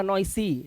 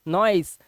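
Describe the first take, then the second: First: नॉइसी read with an extra ई at the end, the wrong way; wrong pronunciation noisy. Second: नॉइस ending cleanly on the स, no vowel after it; silent final e. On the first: Teacher showing students the mistake, नॉइसी with a final ई. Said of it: "अब नॉइसी मत पढ़ना". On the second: Teacher giving the right form, नॉइस with a silent final e. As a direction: say नॉइस and stop on the स. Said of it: "last का ई silent". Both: Shown as a demonstration.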